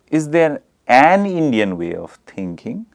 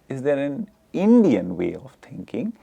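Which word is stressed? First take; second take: an; Indian. First: The stress falls on the word an. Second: The stress falls on the word Indian. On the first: "the stress is on an" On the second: "the stress is on Indian"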